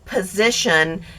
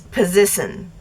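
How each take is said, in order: First: The sh sound is clear and fully formed. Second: The sh sound is slurred and not fully formed. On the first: This is the usual way to say it. "instead of position" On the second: This is how someone else says it. "He just doesn't pronounce the sh"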